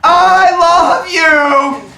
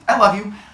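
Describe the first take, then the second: First: It is said loudly. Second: It is said at a normal, quieter volume.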